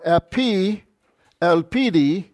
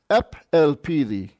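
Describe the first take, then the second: First: The final vowel of epi is fully pronounced. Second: The final vowel of epi is dropped. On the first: "Or epi elpidi" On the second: "a vowel has been dropped"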